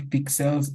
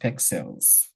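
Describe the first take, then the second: First: The first vowel sounds like 'ih'. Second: The first vowel sounds like 'eh'. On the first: The speaker calls it wrong. "It is not pixels" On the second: The speaker calls it right. "it is pexels"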